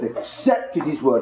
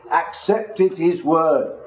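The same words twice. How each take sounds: First: Said in the usual way. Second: "accepted" drawn out slowly and weighted; slow, deliberate emphasis on "accepted"; stress on ACCEPTED. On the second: Shown as a demonstration. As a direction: lean slowly on the word "accepted". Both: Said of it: "I want to emphasize that word".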